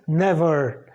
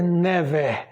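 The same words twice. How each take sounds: First: Never with the ending pulled toward A; corrected English pronunciation. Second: Never with the final syllable said the rejected way; never without the drawn-out A ending; wrong English pronunciation. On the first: Teacher showing the English ending, corrected pronunciation. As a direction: say never as "NEV-ah", lengthening the end. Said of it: "é puxando o som de A". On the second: Teacher warning learners off it, wrong English pronunciation. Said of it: "você nunca vai dizer never". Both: Shown as a demonstration.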